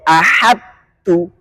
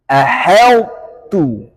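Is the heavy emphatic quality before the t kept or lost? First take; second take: lost; kept. First: The sound merges fully into a plain t. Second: The heavy emphatic quality stays before the t. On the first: The speaker calls it wrong. "nggak boleh dibaca idgham kamil ahadtu" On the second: The speaker calls it right. "Harus idgham naqis, menampakkan sebagian sifat... Itbaq"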